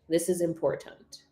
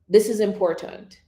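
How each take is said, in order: First: It is said slouched, with arms crossed. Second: It is said standing tall, hands back. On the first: "say it slouched. So say it with your arms crossed" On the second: "sitting tall or standing tall, hands back"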